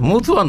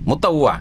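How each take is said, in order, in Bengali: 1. দ্বিতীয় সিলেবলে 'oo' স্বরধ্বনি আছে। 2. দ্বিতীয় সিলেবলে 'ah' স্বরধ্বনি আছে। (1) "মুতুয়া না"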